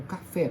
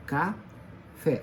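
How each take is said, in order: First: Said in the usual way. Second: "Café" broken into two separate syllables, Ca, then fé. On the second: Shown as a demonstration. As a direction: split "Café" slowly into Ca and fé. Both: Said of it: "O fé é a sílaba forte".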